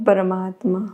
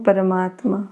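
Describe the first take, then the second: No difference in how they are said.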